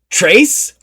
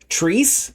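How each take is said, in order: First: It is said as one syllable, like Trace. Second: It is said as one syllable, like Treese. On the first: "or Trace. I was not doing it right" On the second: "I was pronouncing it like Treese"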